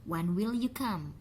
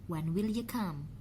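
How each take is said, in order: Both takes have the same delivery.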